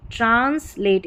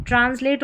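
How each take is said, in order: First: "ट्रांसलेट" split as "trans", pause, "late"; in two parts. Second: Said in the usual way. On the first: Shown as a demonstration. Teacher showing how to split it, "ट्रांसलेट" in two parts. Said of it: "इस तरीके से दो parts में करें". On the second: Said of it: "दो parts में करें".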